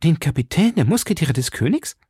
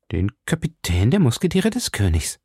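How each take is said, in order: First: "Den Kapitän der Musketiere des Königs" asked with lively pitch swings, rising at the end; questioning echo. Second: "Den Kapitän der Musketiere des Königs" stated as an answer, falling at the end; confirming statement. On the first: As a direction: make "Königs" lift into a question. Erstaunte Rückfrage im Dialog. (fragend, "Königs" am Ende angehoben) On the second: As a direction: let "Königs" drop to confirm. Bestätigende Antwort im Dialog. (bestätigend, "Königs" am Ende gesenkt) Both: A narrator's reading.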